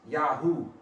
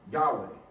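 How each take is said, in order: First: The name ends with an 'oo' sound. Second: The name ends with a 'way' sound. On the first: This is the form in an old Egyptian record. "the way the Egyptian dialect has it broke out" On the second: This is the form scholars use. "the scholarly way to pronounce the God of Israel"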